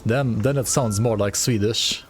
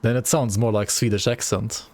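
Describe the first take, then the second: First: Slow, sing-song Swedish accent; melodic Swedish lilt. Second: Said in the usual way. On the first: Shown as a demonstration. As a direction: let the English lilt like Swedish. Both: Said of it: "melodic tone in there".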